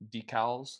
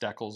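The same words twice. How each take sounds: First: The word is said the usual, standard way. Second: The word is said the local, regional way.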